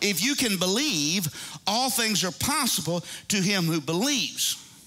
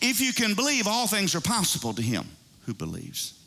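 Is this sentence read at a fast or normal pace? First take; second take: normal; fast. First: It is read at a normal pace. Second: It is read at a fast pace.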